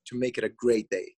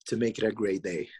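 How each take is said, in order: First: It is said with strong, energetic emphasis. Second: It is said calmly, without extra emphasis.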